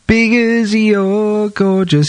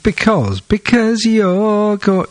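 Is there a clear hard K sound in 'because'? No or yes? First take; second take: no; yes. First: Because lacks a clear hard K sound. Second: Because has a clear hard K sound. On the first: The speaker calls it wrong. "It's weird. It sounds weird" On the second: The speaker calls it right. "Make the C sound, a hard C"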